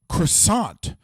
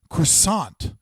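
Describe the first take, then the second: First: It is said with an American accent. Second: It is said with an American accent.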